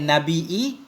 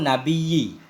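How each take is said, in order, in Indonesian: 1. Kata ini punya hentian glotis sebelum akhiran. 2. Kata ini punya bunyi geser y, tanpa hentian glotis. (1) "Boleh pakai hamzah" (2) "boleh tidak pakai hamzah"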